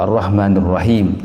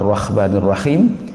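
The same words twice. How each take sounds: First: The h is a plain light h. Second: The h is a rough kh sound. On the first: "atau huruf ha" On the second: "tertukar pada huruf kha"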